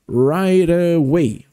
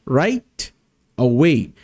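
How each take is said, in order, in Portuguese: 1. As palavras se juntam rápido, com um T suavizado. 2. As palavras são separadas, com um T bem claro. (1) "quando a gente fala numa frase, falando bem rapidinho" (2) "quando a gente fala separado, faz esse sonzinho de T"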